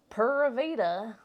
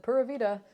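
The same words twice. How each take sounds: First: "Pura Vida" hammed up in a thick American accent, slow and loud; mocking American-accent "Pura Vida". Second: Put-on Pura vida in a thick American accent, "Pura" with a hard American R; strong American accent. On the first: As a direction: tease him by copying his American "Pura Vida". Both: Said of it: "with such a strong American accent".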